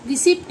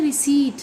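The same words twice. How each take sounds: First: रिसिप्ट as ri-SEPT with audible p; p sounded before t in रिसिप्ट; common mispronunciation. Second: रिसीट as ri-SEET, no p; p-less ri-SEET for रिसीट; correct pronunciation. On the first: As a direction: quote the usual wrong रिसिप्ट. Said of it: "रिसिप्ट ही बोलते हैं". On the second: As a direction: stretch the ee in रिसीट. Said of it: "जबकि बोला जाता है". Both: Shown as a demonstration.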